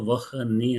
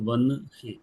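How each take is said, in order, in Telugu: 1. h ధ్వని n ముందు వస్తుంది. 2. h ధ్వని n తర్వాత వస్తుంది. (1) "రాయడంలో వహ్ ని అని రాసిన" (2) "పలకడంలో వన్ హి"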